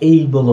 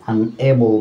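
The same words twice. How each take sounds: First: এইবল with a gliding "ei" first vowel; alternative pronunciation. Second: আনএবল with a short "e" in "able"; alternative pronunciation. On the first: Teacher offering another accepted reading, diphthong pronunciation. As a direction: stretch the opening of এইবল into an "ey" diphthong. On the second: Teacher giving both accepted readings, short-vowel pronunciation. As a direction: say আনএবল with a plain e vowel, no glide. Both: Shown as a demonstration. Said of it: "বা এইবল হতে পারে".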